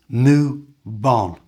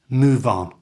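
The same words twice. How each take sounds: First: The phrase is said slowly and drawn out. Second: The phrase is said quickly at normal pace. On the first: "So slowly it becomes" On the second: "And at normal speed"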